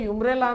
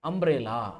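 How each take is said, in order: First: The word begins with a 'y' sound. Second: The word begins with a vowel sound. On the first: The speaker calls it wrong. "ಯು ಇರೋದ್ರಿಂದ ಯುಮ್ರೇಲಾ ಅಂತೀರಿ. ಯುಮ್ರೇಲಾ ಅನ್ನಕಾಕತಿ ಇಲ್ಲ" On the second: The speaker calls it right. "ಸ್ವರದ ಉಚ್ಚಾರಣೆ ಐತಿ"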